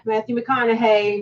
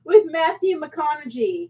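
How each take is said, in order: First: McConaughey slowly, ending in "-hay". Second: McConaughey said slowly, ending in "-gee"; mangled surname. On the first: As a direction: say McConaughey as "muh-KON-uh-hay". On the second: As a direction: say McConaughey as "muh-KON-uh-jee". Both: Shown as a demonstration. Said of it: "G A Y".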